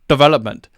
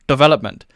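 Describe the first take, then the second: No difference in how they are said.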